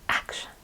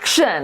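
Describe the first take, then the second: First: The word is said softly. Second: The word is said loudly.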